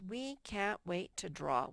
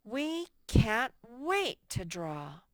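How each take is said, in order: First: Said in the usual way. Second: Much louder, slow, with strong stress on wait; a teacher reading the corrected sentence with real excitement; excited exclamation. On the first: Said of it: "What's wrong with this sentence?". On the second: Shown as a demonstration. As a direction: read it as if you truly can't wait. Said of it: "let's do that for them".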